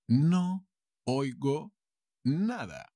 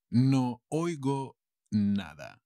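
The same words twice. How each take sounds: First: Higher pitch, a clear pause after each word. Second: Slow, connected teaching delivery; slow model sentence. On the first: Teacher repeats for learners, word by word. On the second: Teacher translates for learners, slow model sentence. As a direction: say it slowly as one phrase. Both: Shown as a demonstration.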